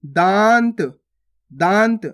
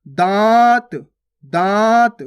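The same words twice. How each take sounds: First: दांत with a full n before the t; nose-only anusvara. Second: दांत with a long nasal vowel, no n consonant; chandrabindu. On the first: Teacher adding the dot, दांत with a nasal n. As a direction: sound a clear n in दांत, "daant". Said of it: "अन की मात्रा लगा के". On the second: Teacher contrasting chandrabindu, long nasalised vowel in दांत. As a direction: stretch दांत loudly through nose and mouth. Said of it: "और ये कैसे पढ़ रहे अपन". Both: Shown as a demonstration.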